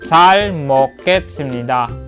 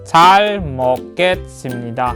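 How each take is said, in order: Both takes have the same delivery.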